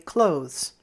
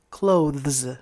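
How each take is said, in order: First: The word is said in a shorter, simplified way. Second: The word is said fully, with every sound. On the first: "it is much easier to say clothes" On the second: "instead of clothes"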